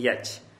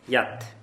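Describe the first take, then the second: First: The word ends with a ch sound. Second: The word ends with a t sound. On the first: The speaker calls it wrong. "Не яч" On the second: The speaker calls it right.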